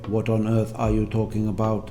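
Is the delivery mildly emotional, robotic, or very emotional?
robotic. It is said mechanically, with no feeling. "the robotic way"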